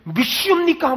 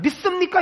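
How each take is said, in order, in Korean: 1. 세게 발음해서 강하게 말했어요. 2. 힘을 더 주지 않고 평범하게 말했어요. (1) "막 이랬어요. 발음을 세게 하는 느낌" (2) "그냥 믿습니까? 이렇게 하면 되는데"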